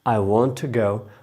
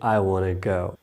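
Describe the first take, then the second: First: Want to is said fully as two words. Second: Want to is reduced to wanna. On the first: "मैं कहता हूँ" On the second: "वो कहेंगे"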